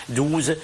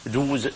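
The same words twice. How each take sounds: The two takes are said the same way.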